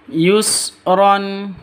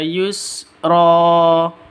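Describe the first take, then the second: First: The word ends with an n sound. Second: The word ends with a long a vowel. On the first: The reading continues without stopping. "kalau ada tanwin terus diikuti dengan alif, maka cara bacanya dibaca yusron" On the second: The reader stops at this word. "bila waqaf dibaca yusra ... panjang dua harokat"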